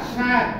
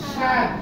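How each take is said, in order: Both takes have the same delivery.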